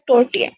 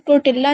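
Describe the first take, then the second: First: The word is said without an L sound. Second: The word is said with an L sound. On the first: The speaker calls it right. "एल silent है, तो ये बनेगा टोर्टिया" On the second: The speaker calls it wrong. "आपने इसको टोर्टिला नहीं पढ़ना"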